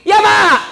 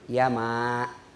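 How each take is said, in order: First: The reply is spoken loudly and harshly. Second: The reply is spoken softly and gently. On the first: The child answers the mother disrespectfully. The speaker calls it wrong. "Nah itu tidak beradab itu" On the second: The child answers the mother respectfully. The speaker calls it right. "itu etikanya"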